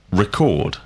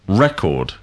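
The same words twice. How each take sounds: First: Record. stressed on the second syllable, re-CORD; verb record. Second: Record. stressed on the first syllable, REC-ord; noun record. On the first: Teacher modelling the verb Record. with stress on CORD. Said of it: "record is the verb". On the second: Teacher modelling the noun Record. with stress on REC. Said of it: "record is the noun". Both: Shown as a demonstration.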